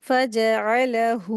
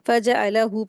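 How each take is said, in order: First: The final vowel is held for two counts. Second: The final vowel is cut short. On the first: The speaker calls it right. "हू को दो हरकत खींच के पढ़ेंगे" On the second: The speaker calls it wrong. "अक्सर लोग गलती करते हैं"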